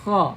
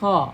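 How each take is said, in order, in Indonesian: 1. Dimulai dengan gesekan kasar di tenggorokan. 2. Dimulai dengan gesekan kasar di tenggorokan.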